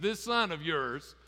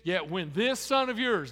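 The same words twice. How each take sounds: First: Slow, leaning on "son" in "This son of yours"; "son" drawn out and weighted, cold and distant; stress on son. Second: Said in the usual way. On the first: Retold or imitated. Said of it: "He didn't say, "This, my little brother." He said". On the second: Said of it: "doesn't call him his brother".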